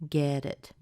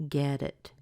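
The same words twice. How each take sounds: Both takes have the same delivery.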